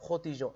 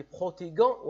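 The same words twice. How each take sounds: First: Protéger said with a soft j as بروتيجون; correct soft j. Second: Protéger said with a hard g as بروتيغون, the mistake; teacher shows the wrong بروتيغون with a hard g sound. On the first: Teacher shows pupils the correct soft j. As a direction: give بروتيجون the soft French j, like the s in measure. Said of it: "لازم ننطقها". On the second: Teacher warns pupils with the wrong hard g. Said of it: "وهذا غير صحيح". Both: Shown as a demonstration.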